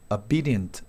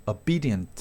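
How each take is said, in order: Both takes have the same delivery.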